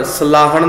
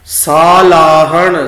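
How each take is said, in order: First: ਸਲਾਹਣ with quick sa, sa-laahan; short first vowel. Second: ਸਾਲਾਹਣ slow and loud, saa-laahan; long first vowel. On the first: Teacher warns against this reading, ਸਲਾਹਣ begun short. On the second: Teacher models the right reading, ਸਾਲਾਹਣ with long aa. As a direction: hold the opening aa of ਸਾਲਾਹਣ. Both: Shown as a demonstration. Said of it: "ਸਲਾਹਣ ਨਹੀਂ ਪੜ੍ਹਨਾ".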